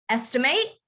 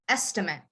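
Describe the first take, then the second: First: The stress is on the last syllable. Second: The stress is on the first syllable.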